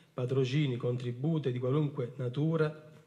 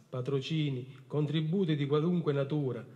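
The two takes are said the same way.

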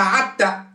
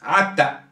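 First: The word begins with a throaty ain sound. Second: The same.

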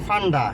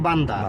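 First: The word begins with an F sound. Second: The word begins with a B sound. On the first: "মার্কেটের নাম লেখা আছে ফান্ডা" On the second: "এরা কইবে বান্দা"

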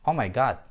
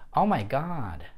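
First: The vowel is short and the final d devoiced. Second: The vowel is long and the final d voiced. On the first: The speaker calls it wrong. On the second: The speaker calls it right.

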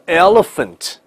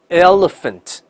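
No difference in how they are said.

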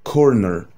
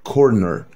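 No difference in how they are said.

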